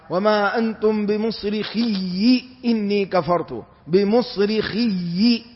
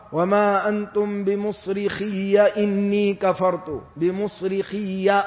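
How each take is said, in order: First: Recited with بمصرخي ending in "-iyyi"; measured recitation, doubled y plus short i closing بمصرخي; kasra on the ya. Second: Slow recitation, بمصرخي ending in an open "-iyya"; fatha on the ya. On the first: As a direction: say بمصرخي as "bimusrikhiyyi", with a final i. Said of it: "وقرأها حمزة بكسر الياء". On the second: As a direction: say بمصرخي as "bimusrikhiyya", with a final a. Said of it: "بفتح الياء". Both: Shown as a demonstration.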